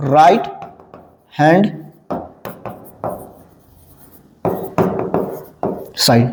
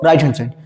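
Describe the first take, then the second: First: "right", "hand", "side", each alone with very long pauses; word by word. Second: Said in the usual way. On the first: Shown as a demonstration. Teacher dictates the full form as class writes, word by word. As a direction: dictate slowly in a lower pitch.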